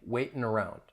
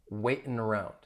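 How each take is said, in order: The two takes are said the same way.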